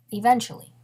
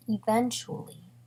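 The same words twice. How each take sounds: First: "eventually" punched out louder; emphatic. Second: "eventually" stretched slowly at usual volume; drawn out. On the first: Narrator promising the guy will change, emphatic "eventually". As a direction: hit "eventually" firmly, leaving it hanging. Same word repeated for emphasis. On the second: Narrator stressing the long wait, drawn-out "eventually". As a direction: draw "eventually" out slowly, unhurried. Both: Real, not acted.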